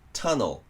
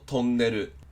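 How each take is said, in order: First: The first vowel is a short "uh" sound. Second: The first vowel is a rounded "oh" sound. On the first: The speaker calls it right. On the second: The speaker calls it wrong.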